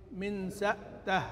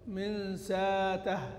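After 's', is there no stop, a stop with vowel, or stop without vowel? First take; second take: stop without vowel; no stop. First: A glottal stop follows 's' with no vowel after it. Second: No glottal stop; a long 'a' vowel follows 's'. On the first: "قرأ بإسكان الهمزة" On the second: "قرأ بالإبدال"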